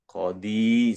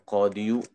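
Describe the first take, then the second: First: The word ends plainly on the long final vowel. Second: The word ends with an added short final syllable. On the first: The case ending is only implied. The speaker calls it right. "Qadi saja" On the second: The full case ending is voiced. The speaker calls it wrong. "Harusnya yahkumul qadiyu"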